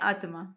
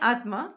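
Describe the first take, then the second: First: A short vowel follows the t. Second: The t joins straight onto the m. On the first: "यहाँ पूरा त है" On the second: "यहाँ आधा त है"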